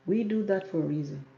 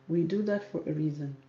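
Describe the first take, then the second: No difference in how they are said.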